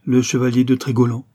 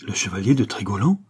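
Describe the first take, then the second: First: "Le chevalier de Trégolan" stated firmly and louder; unhesitating answer. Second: "Le chevalier de Trégolan" echoed as a question, rising at the end; questioning exclamation. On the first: Young man naming himself to Kernan, "Le chevalier de Trégolan" unhesitating. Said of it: "répondit le jeune homme sans hésiter". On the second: Kernan echoing the stranger's name, "Le chevalier de Trégolan" as startled question. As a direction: lift the end of "Trégolan" in disbelief. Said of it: "s'écria Kernan". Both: A narrator's reading.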